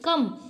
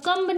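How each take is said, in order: First: The word ends on m; b is silent. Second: The word ends with an audible b sound. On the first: The speaker calls it right. "इसको क्या पढ़ेंगे" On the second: The speaker calls it wrong. "अब कम्ब नहीं पढ़ेंगे"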